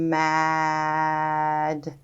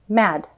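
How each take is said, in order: First: The sounds are drawn out slowly into each other. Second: The sounds are said quickly together as one word. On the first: "Let's stretch it out again" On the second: "Say it fast"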